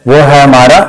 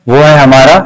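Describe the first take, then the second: No difference in how they are said.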